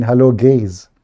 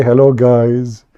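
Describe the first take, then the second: First: "gays" said with an ay vowel, the typo; mistyped gays. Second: Slow, drawn-out "Hello, guys." with the ai vowel; intended guys. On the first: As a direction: read "gays" plainly, the word that came out. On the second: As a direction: stretch "guys" slowly, as meant. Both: Shown as a demonstration. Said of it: "But I was typing".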